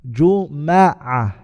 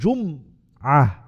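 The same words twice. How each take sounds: First: The m is followed by an a vowel. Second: The m is followed by no vowel. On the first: "placing a Fatha on the Mim" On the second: "placing a Sukun on the Mim and saying Jum'ah"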